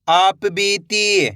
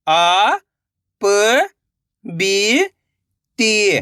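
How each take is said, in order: First: आप बीती joined and slow; blended word. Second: आ, प, बी, ती held, with gaps; syllable by syllable. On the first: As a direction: say आप बीती in one drawn-out go. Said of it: "तो मिलके बन जाएगा". (आप बीती मिलाकर, धीरे से) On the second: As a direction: sound out आ, प, बी, ती one by one. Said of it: "एक एक अक्षर का उच्चारण करके". (आ, प, बी, ती अलग-अलग) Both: Shown as a demonstration.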